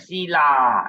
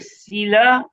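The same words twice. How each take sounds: First: The final vowel is dragged out long. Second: The final vowel is short and clipped. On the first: The speaker calls it wrong. "don't say Sila, then it's completely wrong lah. Don't drag the A" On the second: The speaker calls it right.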